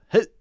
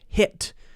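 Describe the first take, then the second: First: The final T is cut off by a stop. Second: The final T is fully released. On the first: "It's a sudden stop" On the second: "instead of saying"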